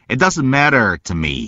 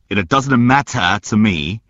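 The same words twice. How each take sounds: First: It is said in an American accent. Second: It is said in a British accent.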